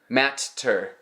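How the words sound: The middle t is a fully pronounced hard t.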